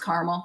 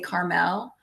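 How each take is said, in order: First: It is said the way Indiana locals say it. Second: It is said the way West Coast people say it.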